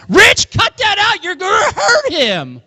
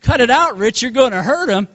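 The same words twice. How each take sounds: First: Very high, drawn-out mock yell; mom's yell. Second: Higher-pitched, mild mock yell; mom's yell, retold. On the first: Mom yelling into the living room at dad, high imitated holler. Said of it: "yelling in the living room". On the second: Mom yelling at dad to protect her son, mild imitated yell. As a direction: retell the yell lightly, without extra volume. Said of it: "my mom was yelling at my dad".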